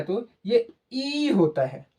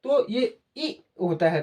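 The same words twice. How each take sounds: First: ई drawn out long and slow; long ई sound. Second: ई said short and quick; short i sound. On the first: Teacher showing a long ई to pupils. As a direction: stretch the ई in तो ये ई होता है. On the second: Teacher showing a short ई to pupils. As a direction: clip the ई in तो ये ई होता है short. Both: Shown as a demonstration. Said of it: "जब इसका उच्चारण आप करते हैं".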